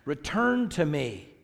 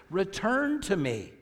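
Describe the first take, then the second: First: Said in the usual way. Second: "Return to me" pitched higher, slow, falling at the end; relational emphasis. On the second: Shown as a demonstration. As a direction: draw out "Return to me" on a raised pitch. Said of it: "Notice the relational emphasis here".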